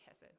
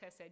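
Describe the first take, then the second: First: It begins with a soft breathy h sound. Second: It begins with a rough sound in the throat. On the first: "you can just say hesed" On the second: "you don't actually have to say chesed"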